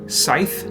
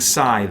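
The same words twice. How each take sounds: First: The th sound is unvoiced, like in thin. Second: The th sound is voiced, like in then. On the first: "an unvoiced th" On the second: "voiced th"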